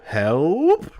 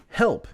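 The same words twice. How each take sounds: First: "help?" drawn out, louder, climbing steeply into a question; rising inflection. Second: "Help!" high and short, falling at the end; exclaimed help. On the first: Shown as a demonstration. Host trying out the letter's question mark, "help?" with exaggerated rising inflection. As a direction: stretch "help?" and swoop right up at the end. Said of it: "Rising inflection". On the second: Acted. Host reading a listener's plea, "Help!" exclaimed high with a fall. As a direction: cry out "Help!" as a quick exclamation.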